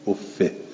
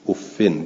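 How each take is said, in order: First: The word ends in a short -i sound. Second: The word ends in an -in sound. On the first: "افه بالکس غیر و منون" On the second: "افن بالکسر و تنوین"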